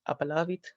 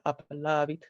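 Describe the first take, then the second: First: Said in the usual way. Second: "appellavit" restated more carefully as classical Latin; classical Latin pronunciation. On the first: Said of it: "or rather appellavit". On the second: Shown as a demonstration. Teacher correcting the example to classical Latin, carefully pronounced. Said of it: "how the word would look in classical Latin".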